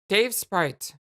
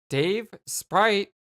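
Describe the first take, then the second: First: The two words run together without a pause. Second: There is a pause between the two words.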